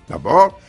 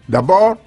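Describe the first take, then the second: The two takes are said the same way.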